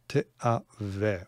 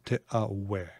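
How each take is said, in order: First: The consonant near the end sounds like v. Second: The consonant near the end sounds like w. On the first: "V or w" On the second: "if you want to say the w pronunciation"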